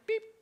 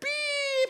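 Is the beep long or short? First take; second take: short; long. First: The beep is short and gentle. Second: The beep is long and angry.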